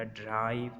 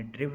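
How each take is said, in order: First: ड्राइव with a long AI sound; ड्राइव as the correct long-vowel reading. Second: ड्रिव with a short, quick I; ड्रिव as the mistaken short-vowel reading. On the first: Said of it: "हमने बोला ड्राइव". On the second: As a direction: say ड्रिव to rhyme with give. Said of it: "हमने ड्रिव नहीं बोला". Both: Shown as a demonstration.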